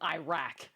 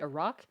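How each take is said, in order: First: It is said the American way. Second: It is said the non-American way. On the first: The speaker calls it wrong. "I grew up calling them Iraq. It sounds so dumb" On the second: The speaker calls it right. "we're trying to say Iraq"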